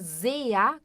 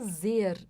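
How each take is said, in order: First: The word ends with a slight 'a' sound. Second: The word ends without an 'a' sound. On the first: The speaker calls it right. "como se tivesse um azinho no final" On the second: The speaker calls it wrong. "A gente não fala zer aqui"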